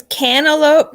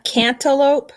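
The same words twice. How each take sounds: First: "cantaloupe" without the T, as can-a-lope; T dropped. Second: "cantaloupe" with a clear T, as can-ta-lope; T pronounced. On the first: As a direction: drop the T in "cantaloupe". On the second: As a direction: sound the T in "cantaloupe". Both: Shown as a demonstration. Asks which of two pronunciations.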